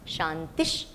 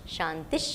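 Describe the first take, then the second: First: The word ends with an sh sound. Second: The word ends with an sh sound.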